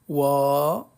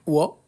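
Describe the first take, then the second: First: The vowel after w is long. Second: The vowel after w is short. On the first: "Waw avec le alif, ça fait wa" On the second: "Le waw avec fatha, ça fait wa"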